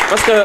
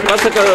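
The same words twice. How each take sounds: The two takes are said the same way.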